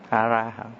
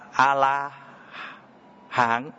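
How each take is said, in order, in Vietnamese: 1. Âm tiết thứ hai bắt đầu bằng âm R. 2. Âm tiết thứ hai bắt đầu bằng âm L. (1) "họ không đọc được A Ra Hán" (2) "Họ không có ấm R, cho nên họ đọc thành âm L"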